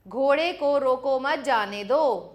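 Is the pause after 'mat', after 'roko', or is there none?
none. It is said without any pause.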